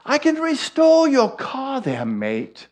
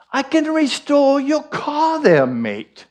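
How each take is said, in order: First: Put-on retry the neighbour's line in an English accent that comes out Irish; Irish-tinged English accent. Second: High, put-on English accent drifting into Irish; English accent, slipping Irish. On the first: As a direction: redo the English accent, high, with Irish creeping in. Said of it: "my English comes out Irish". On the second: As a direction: imitate the English neighbour, accent sliding to Irish. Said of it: "I get into the Irish".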